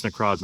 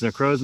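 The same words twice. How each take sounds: First: Necrozma as neh-KRAHZ-muh; stressed middle of Necrozma sounds like "craws"; short O in Necrozma. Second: Necrozma as neh-KROHZ-muh; stressed middle of Necrozma rhymes with "crows"; long O in Necrozma. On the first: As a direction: give Necrozma an "ah" vowel. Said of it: "or do you think it's Necrozma". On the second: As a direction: give Necrozma an "oh" vowel. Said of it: "Do you think it's Necrozma or". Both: Shown as a demonstration.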